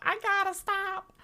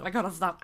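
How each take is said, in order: First: Much higher, mock-desperate cry; playful high-pitched self-scolding; high-pitched wail. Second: Said in the usual way. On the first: Real, not acted. Repeats line as song-like cry.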